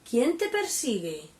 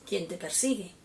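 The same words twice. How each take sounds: First: It is said with question intonation. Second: It is said flat, without question intonation.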